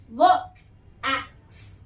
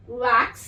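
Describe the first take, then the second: First: व, then एक्स, as separate sounds; word broken into sounds. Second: Said in the usual way. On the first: Shown as a demonstration. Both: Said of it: "break कर करके बता रही हूँ".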